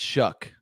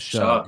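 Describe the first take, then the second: First: The name ends with a k sound. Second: The name ends with a g sound. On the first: The speaker calls it right. "but it's Shuck" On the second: The speaker calls it wrong. "I thought it was Shug"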